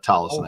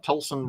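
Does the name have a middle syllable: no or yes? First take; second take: yes; no. First: The name is said with the middle syllable. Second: The name is said without the middle syllable. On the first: The speaker calls it right. "it is uh, Tollison, I believe" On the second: The speaker calls it wrong. "I always want to say Tolson just because of my, you know, Midwestern"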